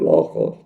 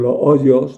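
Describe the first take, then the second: First: The middle consonant is a throaty J sound. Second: The middle consonant is a soft Y sound. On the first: Castilian Spanish speakers say it this way. "lo que nosotros pronunciamos J" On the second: Ladino speakers say it this way. "ellos pronuncian Y"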